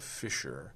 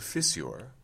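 First: The middle sound is a single sh. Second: The middle sound is s followed by y. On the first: This is the modern pronunciation. "a crack in the rocks is a fissure" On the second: This is the older pronunciation. "At some point it was a fissure"

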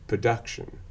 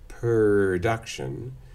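First: The first syllable has no R sound. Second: The R comes after the first vowel. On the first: "if you are non-rhotic, you'll say production" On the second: "you might say production"

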